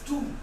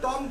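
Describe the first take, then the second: First: The vowel is a long oo, like toom. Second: The vowel is a short o, like tom. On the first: The speaker calls it right. "It's टूम" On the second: The speaker calls it wrong. "टॉम गलत है"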